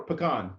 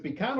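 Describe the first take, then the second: First: Pecan said as puh-KAHN; pecan ending on a broad, stressed KAHN; the other pronunciation. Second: Pecan said as PEE-can, first syllable PEE; pecan starting on a clear PEE; one of two pronunciations. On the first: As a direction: say pecan with a weak first syllable, stressed KAHN. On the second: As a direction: say pecan with a long ee up front. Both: Shown as a demonstration. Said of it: "it's pecan".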